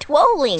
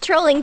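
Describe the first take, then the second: First: The word begins with a W sound. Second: The word begins with an R sound. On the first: The speaker calls it right. "It's got to have the pronunciation of the W" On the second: The speaker calls it wrong. "Not trolling"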